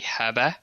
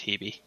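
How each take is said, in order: First: The name is said the Greek way. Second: The name is said the English way. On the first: "the official Greek uh, pronunciation would be" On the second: "in English, it's generally pronounced as"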